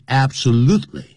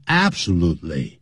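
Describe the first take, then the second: First: Absolutely with the stress on the third syllable, abso-LUTE-ly; absolutely as native speakers say it, third syllable stressed. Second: Absolutely with the stress on the first syllable, AB-solutely; absolutely stressed up front, not on the third syllable; wrong stress. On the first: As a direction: hit the lu in absolutely. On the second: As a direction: say absolutely the common wrong way, hitting the start. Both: Shown as a demonstration. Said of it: "重音在第三个音节".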